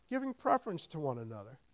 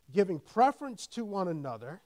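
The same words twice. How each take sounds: First: Said in the usual way. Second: Louder emphatic reading of giving preference to one another; preacher reading the verse to the church; scripture reading. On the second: Shown as a demonstration. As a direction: read it out as scripture, then restate it.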